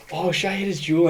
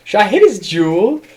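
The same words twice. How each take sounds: First: A hint of a tipsy girl, closer to normal; tipsy girl voice, toned down. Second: Put-on high, loud, giggly drunk question; tipsy girl voice. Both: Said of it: "she was like".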